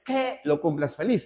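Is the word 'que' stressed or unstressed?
stressed. The word que carries strong stress. The speaker calls it wrong. "no es"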